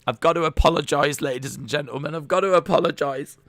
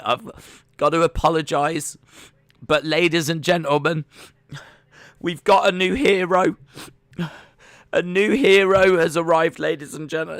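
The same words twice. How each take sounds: First: High, loud tearful mock apology; imitating a sobbing DJ. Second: High, loud choked-up mock announcer; imitating a sobbing DJ. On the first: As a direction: replay the DJ choking up again. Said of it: "sobbing and everything". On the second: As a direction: retell the presenter welling up on air. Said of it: "like, sobbing".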